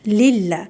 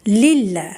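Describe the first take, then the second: No difference in how they are said.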